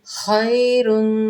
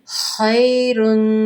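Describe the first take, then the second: Both takes have the same delivery.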